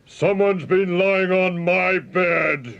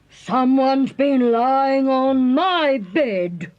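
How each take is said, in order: First: It is roared in a deep, gruff voice. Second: It is growled in a medium-pitched voice.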